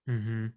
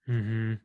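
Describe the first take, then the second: No difference in how they are said.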